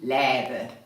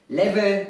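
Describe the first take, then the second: First: The middle consonant is a b sound. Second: The middle consonant is a v sound. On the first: The speaker calls it wrong. "und nicht läbe" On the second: The speaker calls it right. "es heißt leve"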